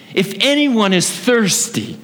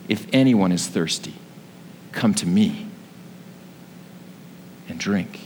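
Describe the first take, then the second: First: High, slow proclamation; half-raised voice imitating a public cry; mild retold cry out. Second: Low, hushed quote with long pauses; restrained, lower-pitched recitation; subdued retelling. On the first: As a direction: call out over a noisy crowd, pitch lifted. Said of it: "he yells out and he speaks in a loud voice". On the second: Retold or imitated. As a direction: say the quote low and gently, letting each phrase settle. Repeats the cried words, subdued.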